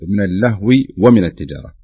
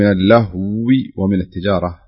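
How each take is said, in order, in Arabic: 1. صوت الواو خفيف ومفرد. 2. صوت الواو مضعّف ويُطال النطق به.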